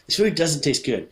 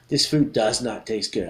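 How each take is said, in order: First: The words 'does not' are contracted to 'doesn't'. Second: The words 'does not' are said in full. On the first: The speaker calls it right. "I would say" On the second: The speaker calls it wrong. "I never say"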